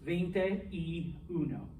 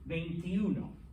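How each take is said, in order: First: Each word is said slowly and separately. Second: The words are slurred together into one word. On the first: "slow again" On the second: "you slur it, you smoosh it all together"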